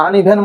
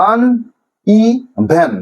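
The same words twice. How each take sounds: First: Said in the usual way. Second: uneven very slow, in three pieces; syllable by syllable. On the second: Shown as a demonstration. Teacher helping students remember, uneven in slow separate syllables. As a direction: say uneven as আন, ই, ভেন, with gaps. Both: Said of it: "এই syllabic division গুলো মনে রাখো".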